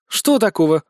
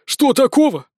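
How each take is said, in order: First: Dismissive huff. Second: Higher, louder indignant echo with stress on "такого"; frowning echo. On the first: Bezos shrugging off the arrest, huffing. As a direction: stress on "что", falling off at the end. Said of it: "хмыкнула Безос". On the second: Fairy boy echoing Bezos, indignant and higher. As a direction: throw it back at her, stressing "такого". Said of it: "нахмурился мальчик-волшебница-фея". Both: A narrator's reading.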